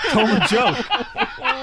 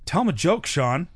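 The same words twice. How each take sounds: First: Slow, high, insistent mock demand; Norm Macdonald. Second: High-pitched retold prodding; Norm Macdonald. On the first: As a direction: draw out the order, half laughing. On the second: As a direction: push an embarrassed friend to perform, playfully. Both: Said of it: "Don't embarrass me".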